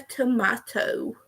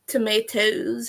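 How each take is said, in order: First: "tomato" said as "to-MAH-to"; "tomato" with an open A, as in father. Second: "Tomatoes" said as "to-MAY-toes"; "Tomatoes" with a long A, as in day. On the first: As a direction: say "tomato" with an AH in the middle. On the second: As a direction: say "Tomatoes" with an AY in the middle. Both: Shown as a demonstration. Contrasts two pronunciations of tomato.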